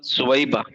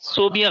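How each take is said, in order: First: The name is said as su-wai-ba. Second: The name is said as so-bi-ya. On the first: The speaker calls it right. "असल है सुवैबा" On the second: The speaker calls it wrong. "सोबिया गलत है"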